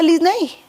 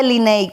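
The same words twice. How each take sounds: First: Said in the usual way. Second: Linney with no S sound before the n; dropped S. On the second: Retold or imitated. Imitating husband in a hurry, dropped S. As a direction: leave the S out, Li-ney. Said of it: "le quita la S a mi nombre".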